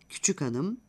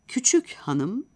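First: The h drops as the words link. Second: The h of hanım is clearly pronounced.

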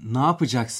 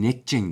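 First: The phrase is said in full, several syllables. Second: The phrase is squeezed into two short syllables. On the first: This is the standard form. "Ne yapacaksın yerine" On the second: This is the local Akşehir form. "netçeng derler"

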